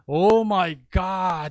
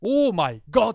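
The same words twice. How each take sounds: First: Slow "Oh my God" said the English way; students' slow native "Oh my God". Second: Higher, louder "Oh my God" like "オーマイゴッド"; the teacher's forced Japanese-style "Oh my God"; katakana English. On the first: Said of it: "言い直させて". (ネイティブ風にゆっくり「Oh my God」) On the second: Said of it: "言い直させて終わる". (カタカナ風に高く強く「オーマイゴッド」) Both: Retold or imitated.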